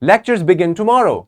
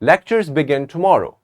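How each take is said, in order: First: It is said excitedly, rising with emphasis at the end. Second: It is said firmly, as a confident statement. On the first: The speaker is thrilled about it. "With excitement, we can use our rising intonation and we have to emphasize at the end" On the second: The speaker knows it is true. "But when I'm sure, I would say"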